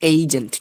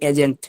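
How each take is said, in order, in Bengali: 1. প্রথম স্বরধ্বনিটি একটি 'ay' শব্দ। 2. প্রথম স্বরধ্বনিটি একটি ছোট 'e' শব্দ। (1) "এবার পড়বেন এইজেন্ট" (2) "এটা আপনি পড়তেন আগে এজেন্ট"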